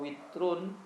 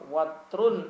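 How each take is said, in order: First: The first vowel is a close i sound. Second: The first vowel is an open a sound. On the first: "dibaca kasrah" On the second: "wawunya dibaca fathah"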